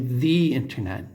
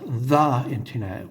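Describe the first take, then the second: First: 'The' is said with a long 'ee' vowel. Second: 'The' is said with a short 'uh' vowel. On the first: The speaker calls it right. "I say the internet" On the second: The speaker calls it wrong. "not the internet"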